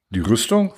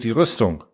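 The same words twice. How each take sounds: First: "Die Rüstung" as a puzzled question, rising at the end; fragendes Echo. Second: Said in the usual way. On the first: A narrator's reading. Zuhörer fragt verständnislos nach. ("Die Rüstung" als verwunderte Rückfrage, am Ende steigend)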